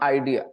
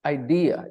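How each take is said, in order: First: The stress is on the first syllable. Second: The stress is on the second syllable. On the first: The speaker calls it wrong. "Don't stress the first syllable" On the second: The speaker calls it right. "Stress the second syllable"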